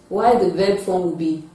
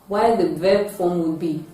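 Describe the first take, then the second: Both takes have the same delivery.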